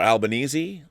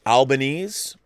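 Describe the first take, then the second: First: Albanese said al-ba-NEE-zee; Albanese ending in -eezee. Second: Albanese said al-ba-NEEZ; Albanese ending in -eez. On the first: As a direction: sound the final E of Albanese as "ee". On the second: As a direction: say Albanese with a silent final E. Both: Shown as a demonstration. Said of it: "I don't know if it's Albanese or Albanese".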